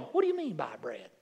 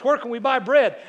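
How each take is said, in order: First: A bemused, lower mock question; puzzled church members. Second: Booming God voice. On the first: Church members puzzled by Jesus' request, mock bewildered. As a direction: play the confused congregation. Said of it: "half the church is going". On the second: Retold or imitated. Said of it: "God says".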